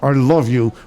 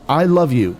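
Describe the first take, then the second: First: It is said through clenched teeth. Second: It is said openly and warmly.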